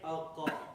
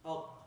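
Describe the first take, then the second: First: The final q is followed by a full vowel. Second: The final q ends with only a slight echo.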